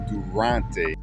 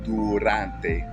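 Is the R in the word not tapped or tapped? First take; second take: not tapped; tapped. First: The R is said without a quick tongue tap. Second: The R is a quick tap of the tongue. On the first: The speaker calls it wrong. "It's not durante" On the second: The speaker calls it right. "you have to quickly tap your tongue on the roof of your mouth"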